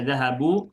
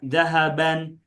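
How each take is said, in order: First: The word ends with a short u vowel. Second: The word ends with a short a plus n. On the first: "Tidak dibaca dhahabu" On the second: "Tidak juga dibaca dhahaban"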